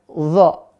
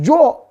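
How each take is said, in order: First: The syllable starts with a heavy z sound. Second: The syllable starts with a j sound. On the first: The speaker calls it right. "Maka yang betul apa? Bacanya zo" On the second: The speaker calls it wrong. "Bukan zo tapi jadi jo"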